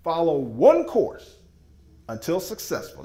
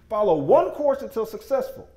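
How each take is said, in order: First: Slow, word by word, each word weighted; deliberate acronym reveal; slow spelled-out acronym. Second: Higher and a bit louder, flowing, punch on one; confident restatement; emphatic repeat. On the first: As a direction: lay out each word of Follow one course until successful like a definition. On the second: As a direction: say Follow one course until successful as a rallying line. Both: Shown as a demonstration. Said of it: "focus stands for this".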